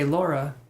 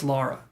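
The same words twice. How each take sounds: First: Laura with an "aw" in the first syllable; mistaken pronunciation. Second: Lara with an "ah" in the first syllable; correcting pronunciation. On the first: Shown as a demonstration. Reader recalling a misnamed client, Laura with "aw". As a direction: say Laura like "LAW-ra". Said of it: "can be pronounced two different ways". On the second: Retold or imitated. Client correcting the reader, Lara with "ah". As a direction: say Lara like "LAH-ra". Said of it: "and they'll be like".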